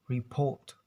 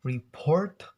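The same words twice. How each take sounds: First: "report" as "re-pawt", second r dropped; "report" the British way, long vowel before t; British silent R. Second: "report" with a clearly sounded r before the t; "report" the American way, both r's heard; American R pronounced. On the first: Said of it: "they will avoid to pronounce it". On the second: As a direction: say "report" firmly, second r audible. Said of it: "pronounce R". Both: Shown as a demonstration.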